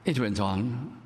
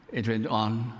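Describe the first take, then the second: No difference in how they are said.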